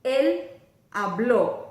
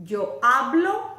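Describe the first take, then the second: First: Loud "habló" stressed on the last syllable, ha-BLÓ; emphatic teacher demo, ha-BLÓ; accent on final o. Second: Loud "hablo" stressed on HA, rising at the end; emphatic teacher demo, HA-blo; present-tense stress. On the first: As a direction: pause after "él", then punch the ó of "habló". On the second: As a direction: hit the first syllable of "hablo", HA-blo. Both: Shown as a demonstration. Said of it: "watch my mouth and listen".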